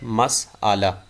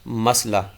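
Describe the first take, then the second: First: The word has three syllables with a long middle vowel. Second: The word has two syllables with no middle vowel. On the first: The speaker calls it right. "मीम की ज़बर के साथ मसआला दुरुस्त तलफ़ुज़ है" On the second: The speaker calls it wrong. "गलत तलफ़ुज़ मसला"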